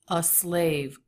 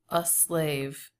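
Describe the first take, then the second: First: The article is a short, weak schwa sound. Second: The article is a short, weak schwa sound.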